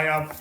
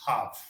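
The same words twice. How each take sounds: First: "have" with the H left off; dropped H. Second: "have" drawn out slowly with H sounded; correct H. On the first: Real, not acted. Teacher giving a learner "I have", H dropped. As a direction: say "have" as 'ave, Manchester style. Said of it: "sometimes the Manchester accent just sneaks". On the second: Shown as a demonstration. Teacher showing the correct way, slow "have" with H. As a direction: breathe a clear H into "have", slowly. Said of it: "the correct way is have".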